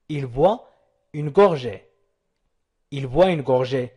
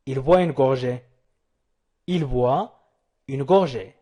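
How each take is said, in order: Both takes have the same delivery.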